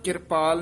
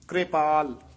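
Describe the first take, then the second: First: A vowel separates the k from the r. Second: The r joins the k directly as kr. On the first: The speaker calls it wrong. "ਕਿਰਪਾਲ ਨਹੀਂ ਕਹਿਣਾ" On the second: The speaker calls it right. "ਰਾਰੇ ਨੂੰ ਲਾ ਕੇ"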